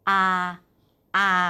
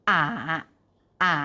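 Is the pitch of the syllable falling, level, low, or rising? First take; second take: level; low. First: The syllable is said on a level pitch. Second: The syllable is said on a low pitch. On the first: "เสียงที่1 ... ใกล้เคียงกับเสียงสามัญของภาษาไทย" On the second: "เสียงที่3 ... ใกล้เคียงกับเสียงไม้เอกในภาษาไทย"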